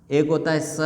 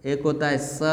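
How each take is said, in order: Both takes have the same delivery.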